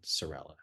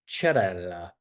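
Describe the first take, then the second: First: The name begins with an s sound. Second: The name begins with a ch sound. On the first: The speaker calls it wrong. "your name is not" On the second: The speaker calls it right. "C E is pronounced ch, as in church"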